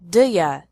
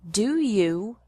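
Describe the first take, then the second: First: You is reduced to ya. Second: You is said in full.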